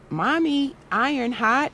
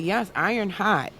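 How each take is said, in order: First: Put-on high child's voice asking a question; a small boy checking with mommy; high childlike query rising on hot; little son asking. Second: Said in the usual way. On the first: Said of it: "he was like". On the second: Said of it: "And I said".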